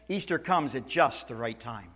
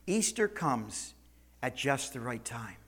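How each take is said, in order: First: Said in the usual way. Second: "Easter comes" drawn out slowly, "at just the right time" falling softer; slow, weighted repeat. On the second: Shown as a demonstration. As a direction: say it slowly and let it sink in.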